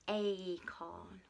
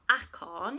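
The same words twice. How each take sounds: First: The first vowel is the letter-name A. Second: The first vowel is not the letter-name A. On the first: The speaker calls it right. "It's acorn. Well done" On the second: The speaker calls it wrong. "It's not acorn, is it?"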